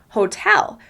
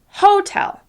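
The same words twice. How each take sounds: First: The stress is on the second syllable. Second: The stress is on the first syllable. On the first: The speaker calls it right. "We pronounce the word hotel" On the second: The speaker calls it wrong. "stress the first syllable of the word"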